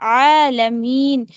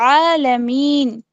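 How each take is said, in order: No difference in how they are said.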